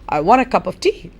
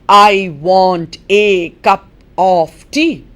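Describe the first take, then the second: First: The small words are reduced to weak forms. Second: Every small word keeps its full, clear vowel. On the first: The speaker calls it right. "How are you going to say it?" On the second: The speaker calls it wrong. "You're not going to say it that way"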